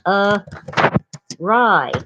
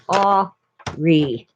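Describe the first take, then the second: First: The word is said like 'a-rye', ending in 'rye'. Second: The word is said like 'ar-ee', ending in 'ee'. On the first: The speaker calls it right. "It was a rye" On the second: The speaker calls it wrong. "I thought it was Ari, like that"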